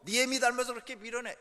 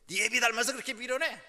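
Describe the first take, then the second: First: Put-on loud, contemptuous jab at the kid; father insulting the child. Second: Put-on loud, contemptuous jab at the kid; mother insulting the child. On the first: Father belittling the child by comparing him to his mother, raised and scornful. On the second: Mother belittling the child by comparing him to his father, raised and scornful. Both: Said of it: "애 자존심을 막 건드는 말".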